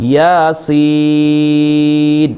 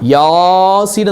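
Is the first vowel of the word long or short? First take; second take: short; long. First: The first vowel is short; the second is long. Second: The first vowel is drawn out long. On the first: The speaker calls it right. "Correct ഓതേണ്ടത് യാസീൻ" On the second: The speaker calls it wrong. "അങ്ങനെ യാസീൻ എന്നല്ല, യാക്ക് നീട്ടില്ല"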